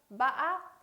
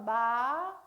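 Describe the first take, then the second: First: The pitch rises with a sharp break in the middle. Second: The pitch rises steadily throughout the syllable. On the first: "약간의 상승되는 음, 그러나 꺾임이 심한 거" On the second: "마 올려주고요"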